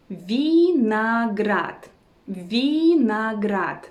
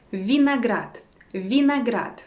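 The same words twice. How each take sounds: First: Vinograd very slow, each syllable stretched. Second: Said in the usual way. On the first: Shown as a demonstration. Teacher teaching the word for grapes, slow syllables. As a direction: draw out vinograd as vee, na, grad.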